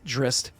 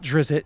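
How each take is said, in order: First: The name has no extra vowel sound. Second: The name has an extra vowel sound. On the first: The speaker calls it right. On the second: The speaker calls it wrong. "not Drizzt, you're adding an extra I"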